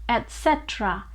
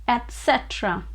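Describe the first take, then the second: Both takes have the same delivery.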